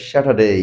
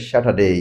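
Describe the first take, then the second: Both takes have the same delivery.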